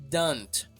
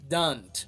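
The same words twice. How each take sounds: Both takes have the same delivery.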